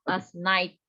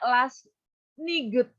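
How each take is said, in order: First: No g sound is pronounced in night. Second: A hard g sound is pronounced in night. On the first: The speaker calls it right. "G-nya jangan dibaca" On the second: The speaker calls it wrong. "jangan dibaca last niget"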